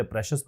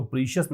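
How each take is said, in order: First: Short E sound in प्रेशियस; correctly pronounced precious. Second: Long EE in प्रीशियस; mispronounced precious. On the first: Teacher showing students the correct reading, प्रेशियस opening on preh. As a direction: say प्रेशियस with "preh" as its first syllable. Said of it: "प्रेशियस पढ़ते हैं". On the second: Teacher showing students the wrong reading, प्रीशियस with a long ee. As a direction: say प्रीशियस with "pree" as its first syllable. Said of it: "इसको प्रीशियस नहीं पढ़ते". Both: Shown as a demonstration.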